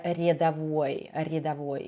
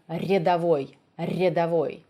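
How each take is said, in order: First: "рядовой" with a weak, barely tapped R; too-mild Russian R. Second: "рядовой" with a sharp, trilled R; correct rolled R. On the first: Teacher mimicking an actor's weak R, mild Russian R. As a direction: soften the R in "рядовой" too much. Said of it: "uh, it's too mild". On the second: Teacher correcting an actor's word, sharp rolled R. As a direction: roll the R crisply at the start of "рядовой". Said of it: "so sh-, he should have said р". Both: Shown as a demonstration.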